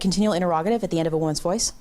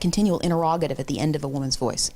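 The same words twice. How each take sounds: First: The voice rises at the end. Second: The voice falls at the end. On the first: The speaker calls it wrong. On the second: The speaker calls it right.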